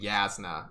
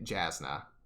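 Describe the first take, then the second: First: The name begins with a Y sound. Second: The name begins with a J sound. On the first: "the J makes the Y sound" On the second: "I was saying the name wrong the whole time"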